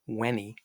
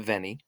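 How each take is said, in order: First: It begins with a W sound. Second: It begins with a V sound. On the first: This is the ancient Roman pronunciation. "ancient Romans would have said veni" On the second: This is the pronunciation used today. "but we'll say veni"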